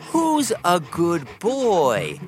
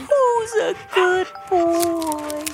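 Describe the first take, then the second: First: It is said in a normal, flat voice. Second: It is said in a high-pitched baby voice.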